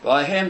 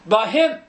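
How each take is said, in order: First: Said in the usual way. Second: "By him" punched, with "him" lifted; firm, raised stress on "him"; emphatic. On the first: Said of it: "You will perhaps notice the emphatic". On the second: Real, not acted. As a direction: hammer home "By him" as a separate statement. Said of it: "I'm being emphatic".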